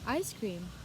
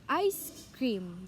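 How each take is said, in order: First: The words run together with no pause. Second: There is a clear pause between the words.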